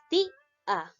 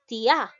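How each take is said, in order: First: "ti-a" with strong, long "ti", then separate "a"; stress on i. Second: "tia" run together, stress thrown onto final "a"; wrong stress on a. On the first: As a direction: lean on the i of "ti-a", breaking before "a". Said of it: "Suena más la i". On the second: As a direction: say "tia" as tiÁ, one joined syllable. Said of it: "Dete cuenta en la pronunciación, no es". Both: Shown as a demonstration.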